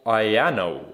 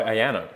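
First: Ayano sounded out slowly as eye-AN-oh; careful, stretched first try at Ayano; tentative pronunciation. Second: Ayano said more quickly, run together as ah-YAN-oh; quicker, less stretched try at Ayano; alternative pronunciation. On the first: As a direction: draw out Ayano, unsure of the name. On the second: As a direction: offer a shorter second guess at Ayano. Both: Shown as a demonstration. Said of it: "never know how to say that".

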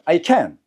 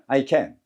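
First: "can" hit hard, final T dropped; strong negative can't. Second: "can" said low and unstressed; low positive can. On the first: Teacher drills "cannot do", strong stressed can. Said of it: "할 수 없다는 세게 합니다". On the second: Teacher drills "can do", low unstressed can. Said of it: "낮게 하면 할 수 있다고". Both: Shown as a demonstration.

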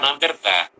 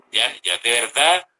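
First: Said in the usual way. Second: "de verdad" said deliberately; correct wording. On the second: Shown as a demonstration. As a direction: stress the fixed "de verdad". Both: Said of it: "se dice de verdad".

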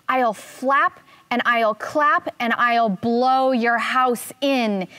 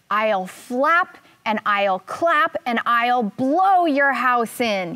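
First: Slow, emphatic, lightly voiced eagle threat; squawking eagle. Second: Drawn-out, emphatic eagle threat, mildly squawky; lightly voiced eagle, stretching each threat out slowly; squawking eagle. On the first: Eagle threatening the dassy's grass house, mild squawk. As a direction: punch out each threat slowly, only mildly squawky. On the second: Eagle landed at the stick house, mild slow squawk. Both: A narrator's reading. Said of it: "he squawked".

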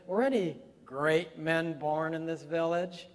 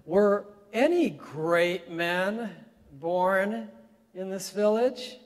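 First: Great men leaned on in a retold sneer; lightly marked condescending retake; emphasis on great men. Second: Slow, high, belittling question; loud, slow sneer of a question; condescending. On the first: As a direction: stress great men as she did. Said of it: "you get the emphasis there on great men". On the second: Retold or imitated. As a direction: talk down to the old man, stretching great men. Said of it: "in a very condescending and very belittling way".

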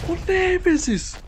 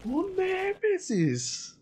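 First: High drawn-out cry of frustration; frustrated shout. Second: Drawn-out wail. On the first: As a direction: wail the name in despair. Shouting at enemy. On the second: Wailing repeat. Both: Real, not acted.

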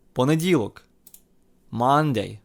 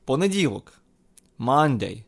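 The two takes are said the same way.

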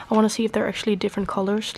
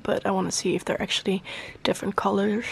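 First: Said in the usual way. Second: Talking weird. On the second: Real, not acted. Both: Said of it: "I'm talking really weird".

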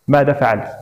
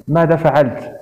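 First: Understated fury, narrator's restrained voice; a touch of enraged accusation; furious demand. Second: Mildly triumphant echo of the question; lightly raised, challenging retort; defiant cry. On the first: Ganya grabs his sister's arm, mildly furious demand. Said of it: "وهتف يسألها وهو ينظر إليها". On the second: Varya throws her brother's question back, mildly defiant. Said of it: "صرخت فاريا تقول وهي ترشق أخاها بنظرة انتصار وتحد". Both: A narrator's reading.

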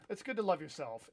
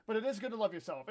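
First: A touch of unintended sarcasm; sarcastic-sounding. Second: Earnest, with weight on "is"; mean it this time, stressing "is"; sincere. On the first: Streamer encouraging a viewer to love yourself, sounding sarcastic. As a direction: praise that comes out faintly sarcastic. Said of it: "I know that sounded sarcastic". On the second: Streamer correcting a sarcastic-sounding line to a viewer, sincere. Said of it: "I know that sounded sarcastic, but". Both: Real, not acted.

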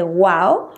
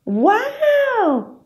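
First: Said in the usual way. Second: "¡Guau!" very high, sweeping down; amazed wow. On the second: Shown as a demonstration. Parent wowing the baby, very high falling exclamation. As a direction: gasp out a big wow for the baby. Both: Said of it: "no hace el sonido de".

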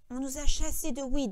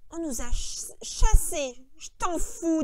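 First: Understated burst of triumph; triumphant outburst. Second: Louder, scornful echo; disgusted. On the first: Lenny suddenly remembering Weed for George, triumphant. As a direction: blurt it out proudly, a little louder. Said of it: "dans une explosion de triomphe". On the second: George throwing Lenny's words back at him, disgusted. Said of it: "dit Georges avec dégoût". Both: A narrator's reading.

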